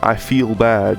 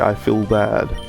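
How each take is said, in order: First: Feel has a long 'eel' vowel. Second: Feel has a short 'ill' vowel. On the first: "instead of saying" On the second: "You don't say eel, you say ill"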